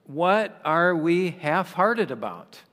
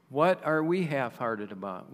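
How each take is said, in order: First: Slow, pressing question with weight on what; emphatic question. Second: Said in the usual way. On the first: Shown as a demonstration. Preacher presses the congregation on half-hearted faith, slow and emphatic. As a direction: lean into the question to stir the congregation.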